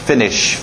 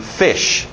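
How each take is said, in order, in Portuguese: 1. O som do N no meio é pronunciado claramente. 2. O som do N no meio é omitido. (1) "cuidado com esse N" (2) "geralmente o N só acaba saindo fish"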